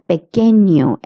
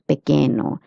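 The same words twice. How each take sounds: First: The middle consonant is a palatal ny sound. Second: The middle consonant is a plain n sound. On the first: The speaker calls it right. "that's why it's pequeño" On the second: The speaker calls it wrong. "and not pequeño"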